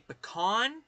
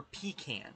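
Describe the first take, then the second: First: "pecan" said puh-KAHN, rising; puh-KAHN pronunciation. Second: "pecan" said PEE-can; long ee first in "pecan", then can as in tin can; PEE-can pronunciation. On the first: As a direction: stress the second syllable of "pecan" with an open ah. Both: Shown as a demonstration. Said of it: "say it in the different ways".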